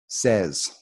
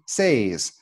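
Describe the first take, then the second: First: The vowel sounds like the one in 'bed'. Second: The vowel sounds like the one in 'day'. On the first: The speaker calls it right. "really a native speaker would say this word says" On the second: The speaker calls it wrong. "you look at it and you say say, says"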